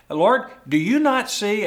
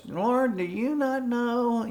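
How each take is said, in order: First: Loud, high, indignant complaint; Martha ticked off. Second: High, whiny Martha voice; nasally whine. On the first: Martha snapping at Jesus over her sister. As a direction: scold Jesus as an offended hostess. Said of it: "Martha was ticked off". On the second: Martha whining to the Lord in a high nasal voice. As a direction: whine it like a put-upon complainer. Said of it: "this kind of nasally whine". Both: Acted.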